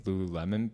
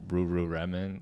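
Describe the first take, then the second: First: The word is said with clear L sounds. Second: The L sounds are replaced by R sounds.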